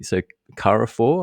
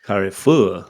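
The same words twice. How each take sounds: First: Carrefour said as kah-ruh-for, anglicised; unsure pronunciation. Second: Carrefour said the French way, kar-fu; French pronunciation. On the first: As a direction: Carrefour with English r and final for. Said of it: "I'm not sure ex- on the pronunciation of that". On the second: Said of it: "French accent credentials have just gone through the roof". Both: Shown as a demonstration.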